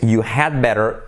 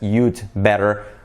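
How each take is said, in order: First: The word 'had' is said in full. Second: The word 'had' is contracted onto 'you'. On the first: "it's you had better" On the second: "contracted as you'd better"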